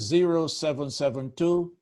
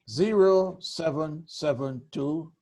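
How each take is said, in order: First: The number is said at normal speed. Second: The number is said slowly.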